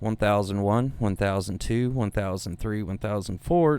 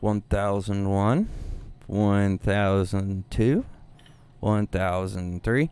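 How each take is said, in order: First: The counting is at a normal, even pace. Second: The counting is drawn out and very slow.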